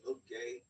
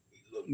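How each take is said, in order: First: Said in the usual way. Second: Louder spooky ghost moan. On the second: Pretend. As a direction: drag it out like a ghost. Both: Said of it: "good ghost impression".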